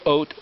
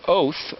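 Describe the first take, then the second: First: The word ends with a plain T sound. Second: The word ends with a TH sound. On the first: "because the Tav can sound like a T" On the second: "or a T H"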